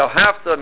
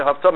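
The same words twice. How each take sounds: First: "Haftarah" as "ve'ahavta" with "hav" stressed; stress before the last syllable. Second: "Haftarah" as "ve'ahavta" with the final "ta" stressed; stress on last syllable. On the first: Teacher showing the mistaken past form, next-to-last syllable stressed. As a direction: stress the "Haf" of "Haftarah", leaving the ending light. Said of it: "not that you loved". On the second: Teacher showing the command meaning, last syllable stressed. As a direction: put the accent on the end of "Haftarah". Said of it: "means you should love". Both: Shown as a demonstration.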